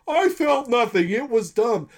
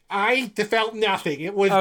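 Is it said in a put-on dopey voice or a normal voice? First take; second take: dopey voice; normal voice. First: It is said in a put-on dopey man voice. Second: It is said in a plain, normal voice.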